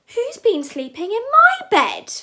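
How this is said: It is said in a medium-sized voice. "cried Mama Bear in her medium-sized voice"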